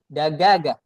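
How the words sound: The middle consonant is a hard g sound. This is how Egyptians say it. "they say Dagaga"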